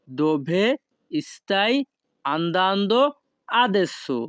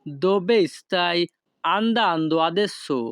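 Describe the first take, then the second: First: Each word of "Dove stai andando adesso?" set apart by pauses; slow separated words for a class. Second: Said in the usual way. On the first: Shown as a demonstration. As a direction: break the question into single words for learners. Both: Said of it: "এই বাক্যের Italian ভাষা হবে".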